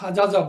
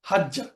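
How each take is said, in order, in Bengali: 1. দুটি আলাদা 'j' ধ্বনি, মাঝখানে একটি স্বরধ্বনি। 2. একটি দ্বিত্ব 'j' ধ্বনি, মাঝখানে কোনো স্বরধ্বনি নেই। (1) "তখন হাজাজা বলি না" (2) "আমরা বলি হাজ্জা"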